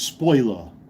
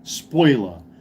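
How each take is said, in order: First: It is said in a New York accent. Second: It is said in a New York accent.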